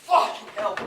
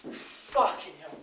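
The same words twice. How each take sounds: First: Sharp, loud curse, higher in pitch; angry outburst. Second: Slow, breathless whisper, low; whispered despair. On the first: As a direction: spit it out in anger. Alone, cursing after the death. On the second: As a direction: let it fall out under your breath. Repeats the curse to himself. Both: Acted.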